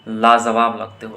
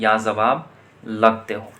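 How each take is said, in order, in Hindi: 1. पहला शब्द L ध्वनि से शुरू होता है। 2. पहला शब्द Y ध्वनि से शुरू होता है।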